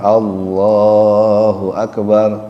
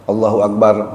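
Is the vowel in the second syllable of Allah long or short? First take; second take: long; short. First: The vowel in Allah's second syllable is long. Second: The vowel in Allah's second syllable is short. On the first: The speaker calls it right. "Allahnya panjang" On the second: The speaker calls it wrong. "bukan Allahu Akbar"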